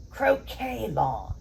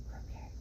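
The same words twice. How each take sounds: First: Croquet drawn out slowly, falling at the end; slow savoring. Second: Croquet whispered with no voice. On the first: Co-host picking up the cue, slow and grand. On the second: Feeding the co-host the word in a whisper. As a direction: breathe Croquet out as a hushed prompt. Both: Pretend.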